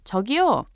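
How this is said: It is called out to get attention.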